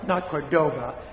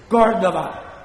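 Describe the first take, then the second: First: The stress falls on a later syllable. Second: The stress falls on the first syllable. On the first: The speaker calls it wrong. "not Cordova. That makes me sick" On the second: The speaker calls it right. "There's an accent in the first syllable"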